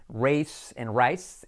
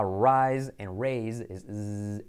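First: Slow "race" and "rice", long hissing S; voiceless S. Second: Slow "rise" and "raise", voiced "z" endings; buzzing S. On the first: Teacher shows the only difference, voiceless S. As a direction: end "race" and "rice" in "sss". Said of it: "es una S sorda". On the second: Teacher shows the fly-like S, buzzing z. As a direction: buzz the "z" like a fly. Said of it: "S como mosca". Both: Shown as a demonstration.

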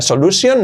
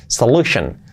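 First: "solution" as rising so-lu-SION; higher, s sound in "solution"; wrong pronunciation. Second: "solution" ending in weak "shen"; falling "solution", so-LU-shen; correct pronunciation. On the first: Teacher rejects this version: "solution" as so-lu-sion. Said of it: "Nada de solution". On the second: Teacher models the ending: "solution" with sh. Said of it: "Shan, solution". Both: Shown as a demonstration.

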